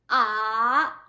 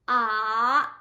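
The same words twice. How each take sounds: First: The pitch dips low then rises slightly. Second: The same.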